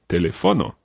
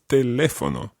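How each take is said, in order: First: The stress is on the third syllable. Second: The stress is on the second syllable. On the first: The speaker calls it wrong. "it would be telefono, but that's wrong" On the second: The speaker calls it right. "So it's teléfono"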